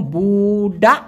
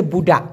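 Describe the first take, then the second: First: বুডা with a long held buu, then daa; drawn-out pronunciation. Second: Said in the usual way. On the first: Shown as a demonstration. Teacher shows how বুডা is pronounced, stretched syllables. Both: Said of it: "উচ্চারণটা এরকম".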